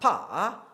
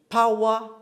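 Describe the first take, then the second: First: The vowels are squeezed into one sound. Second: Three vowel sounds are strung together. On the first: "some will say sa and pa" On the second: "we'll say power"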